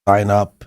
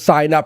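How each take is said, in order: First: It is said quietly with flat, tired energy. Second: It is said loudly with lively, enthusiastic energy. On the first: The speaker calls it wrong. "But Jared's like this" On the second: The speaker calls it right. "Come on, guys, it'll be fucking fun"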